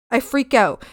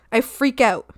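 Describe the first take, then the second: No difference in how they are said.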